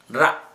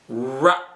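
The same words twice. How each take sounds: First: The R sound is said the Indian way. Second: The R sound is said the English way. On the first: The speaker calls it wrong. "Indians say it or pronounce it ra" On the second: The speaker calls it right. "English must be pronounced in this way"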